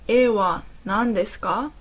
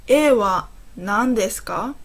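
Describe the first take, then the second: No difference in how they are said.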